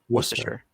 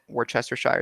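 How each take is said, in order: First: Some syllables are shortened and run together. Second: Every syllable of the word is fully sounded out. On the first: The speaker calls it right. "It's actually, it's actually" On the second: The speaker calls it wrong. "the sauce that looks like it's phonetically Worcester, Worcestershire"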